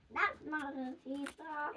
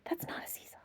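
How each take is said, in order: First: Slower trailing whisper; slow echo whisper. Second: Unvoiced whisper; whispered warning. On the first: Acted. Monkey's warning echoing in a whisper. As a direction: let it echo away slowly. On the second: Monkey whispering a warning to the children. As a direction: breathe the words with no voice.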